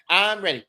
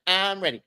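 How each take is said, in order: No difference in how they are said.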